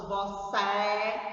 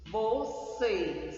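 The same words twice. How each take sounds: First: "você" ending in an open é, "vo-cé"; wrong open vowel. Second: "Você" ending in a closed ê; closed vowel. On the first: Teacher showing what we don't say, "você" with open é. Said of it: "nós não falamos". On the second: Teacher modelling the circumflex sound, "Você" with closed ê. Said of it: "som fechado". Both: Shown as a demonstration.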